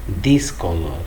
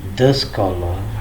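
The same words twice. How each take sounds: First: 'The' is said with a long 'thee' vowel. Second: 'The' is said with a short 'thuh' vowel. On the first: The speaker calls it wrong. "It's not the scholar, whereas scholar is a word which begins with a consonant" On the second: The speaker calls it right. "words which begin with consonant sound"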